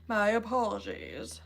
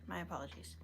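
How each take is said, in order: First: Mock-formal apology. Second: Said in the usual way. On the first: Streamer apologizing for merging names, playfully overdone. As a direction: stretch it out in a put-on voice.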